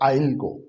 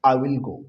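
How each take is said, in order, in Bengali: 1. Will সংক্ষেপ হয়ে I-এর সাথে জুড়ে যায়। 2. 'will' শব্দটি পুরোটা উচ্চারণ করা হয়।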